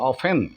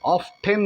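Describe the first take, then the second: First: The t sound in the middle is silent. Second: The t sound in the middle is pronounced. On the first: The speaker calls it right. "ടി silent" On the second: The speaker calls it wrong. "ഓഫ് ടെൻ അല്ല"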